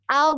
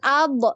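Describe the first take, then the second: First: The final consonant flows smoothly without a bounce. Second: The final consonant is released with a bounce. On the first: The speaker calls it right. "tapi ab, ab, ngalir" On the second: The speaker calls it wrong. "jangan dipantul, jangan ab"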